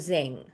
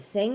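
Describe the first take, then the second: First: The name begins with a buzzing Z sound. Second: The name begins with a hissing S sound. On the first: "or a Z?" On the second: "is it with an S"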